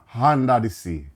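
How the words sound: The first word starts with an H sound. This is how it would sound in a Caribbean accent. The speaker calls it right. "You need H in the vowels"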